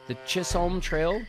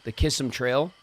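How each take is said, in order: First: The name begins with a ch sound. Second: The name begins with a k sound. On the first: The speaker calls it wrong. "I wouldn't pronounce it like that" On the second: The speaker calls it right. "I would call it Kissam"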